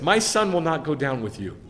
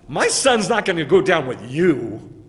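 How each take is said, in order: First: The stress is not on the final word. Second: The stress falls on the final word you.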